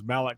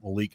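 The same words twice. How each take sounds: First: The name is pronounced the European way. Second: The name is pronounced the American way. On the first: This is how the name was said abroad. "He was Malik whenever he was in Europe" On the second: This is how Americans say the name. "Americans pronounce that Malik"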